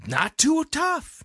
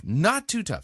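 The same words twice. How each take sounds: First: High, slow, drawn-out emphasis. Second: Said in the usual way. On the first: Shown as a demonstration. Repeats phrase with emphasis.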